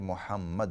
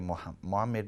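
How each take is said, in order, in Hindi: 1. यह नाम सावधान अरबी आवाज़ों के साथ बोला गया है। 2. यह नाम गैर-मूल, अंग्रेज़ीकृत आवाज़ों के साथ बोला गया है। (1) "बल्कि मोहम्मद है" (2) "मोहम्मद नहीं है"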